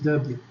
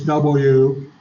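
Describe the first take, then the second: First: The letter is said as 'dubya'. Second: The letter is said as 'double-you'. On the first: The speaker is local to the area. "if you're from around here, that's W. D U B Y A" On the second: The speaker is not from the area. "If you're not from around here, it's W"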